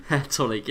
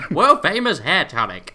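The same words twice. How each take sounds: First: Said in the usual way. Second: Loud Western huckster voice; cowboy twang. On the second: Pretend. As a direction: boom it like an old-time tonic seller. Hawking hair tonic, Western style.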